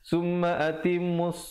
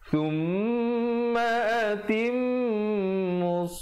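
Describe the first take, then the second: First: The m is said without a held nasal hum. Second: The m is said with a held nasal hum. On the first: The speaker calls it wrong. "Kadang ramai orang tak dengungkan" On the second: The speaker calls it right. "dengungkan dua harakat"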